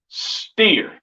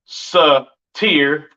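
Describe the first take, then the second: First: The S and T sounds blend with no vowel. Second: A vowel separates the S and T sounds. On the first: The speaker calls it right. "you would say" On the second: The speaker calls it wrong. "you wouldn't say"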